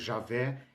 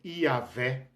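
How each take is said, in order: First: The name begins with a 'zh' sound. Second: The name begins with a 'y' sound. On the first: The speaker calls it wrong. "não é Jeová nem Javé" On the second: The speaker calls it right. "é Iavé"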